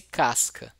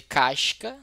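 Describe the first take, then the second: First: Casca with a plain hissed s; other-region pronunciation. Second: Casca with a hushing "sh" for the s; Carioca pronunciation. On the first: Teacher contrasting other regions with Rio, plain s pronunciation. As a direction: say casca with a clean "s" before the c. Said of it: "se você pegar pessoas de outra região". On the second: Teacher showing how cariocas say it, Carioca pronunciation. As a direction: say casca as "cashca", Rio style. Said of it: "se você pegar os cariocas, eles vão dizer". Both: Shown as a demonstration.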